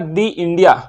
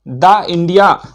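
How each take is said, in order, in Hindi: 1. 'the' को लंबे 'ee' के साथ बोला जाता है। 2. 'the' को छोटे 'uh' के साथ बोला जाता है। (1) "दा को दी पढ़ेंगे" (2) "जो द इंडिया पढ़ेंगे वो गलत पढ़ रहे हैं"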